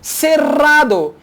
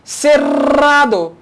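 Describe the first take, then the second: First: The double R is a long rolled trill. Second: The double R is a long rolled trill.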